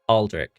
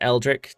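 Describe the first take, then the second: First: The name begins with an 'ah' vowel. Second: The name begins with an 'eh' vowel. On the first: The speaker calls it right. "It's with an A" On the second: The speaker calls it wrong. "Not Eldrick"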